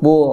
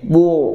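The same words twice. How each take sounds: First: The syllable sounds light, without pouted lips. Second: The syllable sounds thick, with pouted lips. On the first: The speaker calls it right. "harusnya bu" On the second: The speaker calls it wrong. "bacanya manyun jadi bu, bu sirat, jadi tebal"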